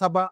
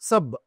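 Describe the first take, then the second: First: The word ends with a vowel after b. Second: The word ends on the b consonant. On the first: The speaker calls it wrong. "సబ అనుకు చెప్పకూడదు" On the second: The speaker calls it right. "సబ్ అని అంటాం"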